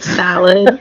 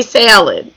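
First: Said in the usual way. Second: Salad with a Chicago A; Midwestern accent. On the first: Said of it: "and we were like". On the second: Retold or imitated. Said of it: "really bad Miss West-, Midwestern accent".

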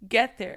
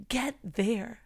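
First: Emphatic louder echo; louder repeat. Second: Said in the usual way. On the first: Shown as a demonstration. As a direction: Get there punched louder, falling.

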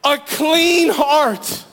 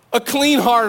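First: Clean heart stretched very slow and higher; pleading cry. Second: Said in the usual way. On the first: Retold or imitated. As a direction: draw out "clean" as a longing plea. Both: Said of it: "this cry to God".

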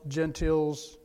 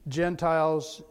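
First: "gentils" ending in a short "tils", not "tiles"; "gentils" as JEN-tilz, the old spelling sounded out; Tyndale's old form. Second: Said in the usual way. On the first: Shown as a demonstration. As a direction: say "gentils" with a short i in the second syllable. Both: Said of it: "And Tyndale".

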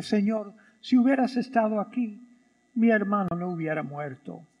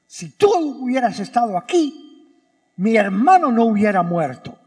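First: Said quietly and resigned, voice dropping; a soft, sorrowful reproach to the Lord; grieving sister speaking gently; soft, subdued plea. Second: Firm, accusing, stress on tú; reproachful. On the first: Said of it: "Eso es una manera de decirlo". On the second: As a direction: throw the blame right at him. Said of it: "ese es el tono que me suena". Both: Shown as a demonstration.

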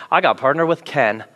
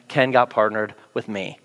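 First: "I" leaned on, falling tune; stress on I. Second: "Ken" stressed, lower and softer, wry. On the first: Pastor tells the church who he got paired with, stressing "I". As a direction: punch the "I" in "I got partnered". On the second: Pastor jokes that Ken got stuck with him, stressing "Ken". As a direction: wryly lean on "Ken" as the unlucky one. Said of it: "and sadly for Ken". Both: Shown as a demonstration.

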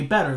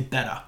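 First: "better" said with a full r at the end; standard better. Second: "better" in a Maine accent, r dropped: "betta". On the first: Correcting a Maine word: "better" with its r. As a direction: say "better" with the r sounded. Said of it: "they say better". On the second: Showing how Maine folk say "better", r dropped. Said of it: "they don't say better". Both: Shown as a demonstration.

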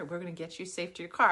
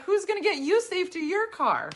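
First: Said in the usual way. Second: You lifted higher and leaned on; stress on you. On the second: Retold or imitated. Comedian turning the old ladies' promise back on them, stressing you. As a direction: hit the word you with a raised pitch. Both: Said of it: "And we were like".

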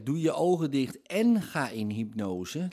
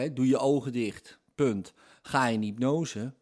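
First: "en" lifted and linked to ga in hypnose; stress on en. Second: "doe je ogen dicht" and "ga in hypnose" as two closed statements, "punt" between; separate with full stops. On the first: Teacher stresses "en" to a listener. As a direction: join the two commands with a rising "en". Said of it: "is het woordje, in dit geval en". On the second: Teacher splits the two commands for a listener. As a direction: end each command flat and apart. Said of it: "als we gewoon bijhouden". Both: Shown as a demonstration.

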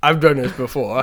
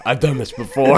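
First: Lightly imitating a defensive uncle; a hint of a defensive uncle; mocking uncle. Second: Higher, louder hammed-up nervous uncle; mock nervous uncle. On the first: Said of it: "He was like". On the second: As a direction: fake confidence, a bit panicked. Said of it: "So he's like".

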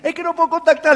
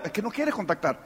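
First: Higher-pitched imitation of an excuse-maker; mock excuse. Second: Low, soft, matter-of-fact reply; quiet rebuttal. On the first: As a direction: plead it in a raised voice. Acting out people's excuse to him. (excusa quejosa imitada, en tono agudo) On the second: Acted. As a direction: drop the voice and correct them. His deadpan answer to the excuse. (réplica baja y serena)

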